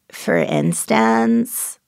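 The pitch rises at the end, with creak. "classic uptalk with a little sprinkle of fry and pitch up"

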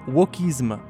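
The word is said with a French accent. "if you didn't understand it in the French accent"

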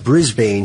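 It is said with an American pronunciation. The speaker calls it wrong. "Americans always pronounce it Brisbane"

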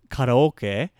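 The word is said with Japanese pronunciation. "The word in Japanese"

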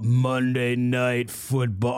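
It is said in a theatrical put-on voice.

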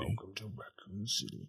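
It is said in a deep voice.

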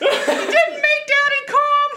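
It is said in the first cat's voice.

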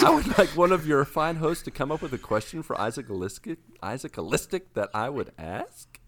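The voice rises at the end like a question.

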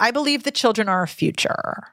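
The voice falls at the end. "which is just vocal fry"

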